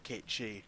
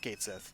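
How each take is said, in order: First: The second word is pronounced like 'she'. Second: The second word is pronounced like 'sith'. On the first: This is the name of the mythological creature. "the mythological thing is called a Kate She" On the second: This is the name of the video game character. "if you're talking about Final Fantasy seven, then it's Kate Sith"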